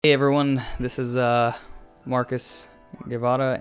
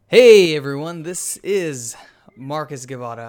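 First: The voice is flat with little pitch movement. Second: The voice is lively with lots of pitch movement. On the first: The speaker calls it wrong. "you sound like so monotone today" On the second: The speaker calls it right. "the very peppy, super energetic"

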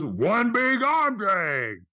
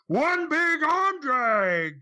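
First: It is said a little louder. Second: It is said loudly.

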